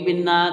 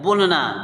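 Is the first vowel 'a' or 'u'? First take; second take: i; u. First: The first vowel is a short 'i' sound. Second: The first vowel is a short 'u' sound. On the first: The speaker calls it wrong. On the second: The speaker calls it right.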